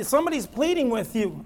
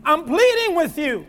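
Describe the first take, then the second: First: Said in the usual way. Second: Acted, higher-pitched plea; pleading. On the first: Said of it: "give me a picture of this". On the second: Preacher pictures Paul pleading with the church, imploring. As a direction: implore them with rising urgency.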